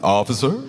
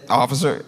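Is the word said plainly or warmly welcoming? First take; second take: warmly welcoming; plainly. First: It is said as a warm, welcoming greeting. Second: It is said as a plain, neutral greeting.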